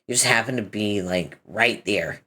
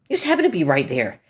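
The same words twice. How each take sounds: First: Said in the usual way. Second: Fast, slightly higher echo of happened; fast repeat of the same words; quick repeat. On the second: Acted. Quick mocking repeat of own line.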